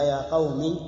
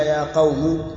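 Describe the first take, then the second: First: "يا قوم" ending in a short i, qawmi; kasra on the mim. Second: "يا قوم" ending in a u sound, qawmu; damma on the mim. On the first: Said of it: "بكسر الميم". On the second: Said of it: "وبضمها". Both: Shown as a demonstration.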